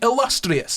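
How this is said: It is said in a strong Scottish accent.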